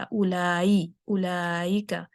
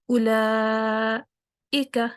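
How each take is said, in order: First: "اولائکا" gliding through a y sound, as ulayika; mistaken ya for hamza. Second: "اولائکا" drawn out, cut off, then a fresh i; slow "اولائکا" with a clean glottal break; hamza with stop. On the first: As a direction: let "اولائکا" slide from la into yi, no stop. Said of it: "حمزہ کی بجائے اس کو میں نے یا کہہ دیا". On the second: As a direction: hold "la" in "اولائکا", close the sound, restart on i-ka. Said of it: "آواز کو بند کر کے". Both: Shown as a demonstration.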